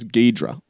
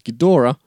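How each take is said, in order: First: The name is said in a shortened Americanized form. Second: The name is said in the fuller Japanese-style form. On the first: This is the Americanized version of the name. The speaker calls it wrong. "Ghidra is very much an Americanization of the same name" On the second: This is the original version of the name. The speaker calls it right. "the classic original Japanese pronunciation"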